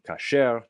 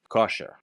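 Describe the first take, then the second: First: The stress is on the last syllable. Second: The stress is on the first syllable.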